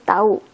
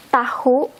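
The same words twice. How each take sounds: First: "tahu" said as "ta-u", no h; H dropped. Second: "tahu" with the H sounded between the vowels; H pronounced. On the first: Teacher showing learners the lazy everyday form, H dropped. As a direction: let "tahu" glide from a to u without the H. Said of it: "laziness, we just say tahu". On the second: Teacher showing learners the formal word, H pronounced. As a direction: say "tahu" with an audible h before the u. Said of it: "we have to pronounce the H". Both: Shown as a demonstration.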